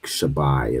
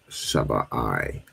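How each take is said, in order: First: The final 'i' is joined smoothly to the word. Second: The final 'i' is said as a separate part. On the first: "as opposed to joining it" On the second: "the I is separate"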